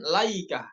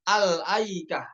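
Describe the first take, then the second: First: No glottal stop; it starts straight with l. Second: A glottal stop follows the opening al. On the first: The speaker calls it wrong. "bukan Laikah" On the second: The speaker calls it right. "dibacanya dengan hamzah, yaitu Al-Aikah"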